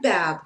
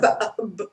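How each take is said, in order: First: The word flows smoothly with no glottal stop. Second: A glottal stop breaks the word in the middle. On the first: The speaker calls it right. "No, we hear bab" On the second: The speaker calls it wrong. "We don't hear ba, b"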